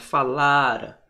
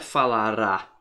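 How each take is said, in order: First: The stress is on the second-to-last syllable. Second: The stress is on the last syllable. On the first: It refers to a past action before another past. The speaker calls it right. "é na paroxítona" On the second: It refers to something that will happen in the future. The speaker calls it wrong. "não é falará"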